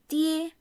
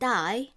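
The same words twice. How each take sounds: First: It sounds like the Mandarin syllable dee-eh. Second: It sounds like the English word die. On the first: The speaker calls it right. "It is die" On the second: The speaker calls it wrong. "it's not die, which will be English"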